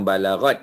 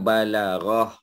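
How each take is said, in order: First: The word ends with a t sound. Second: The word ends with an h sound. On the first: The speaker calls it wrong. "bukan balarat ya" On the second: The speaker calls it right. "Dia balarah ya"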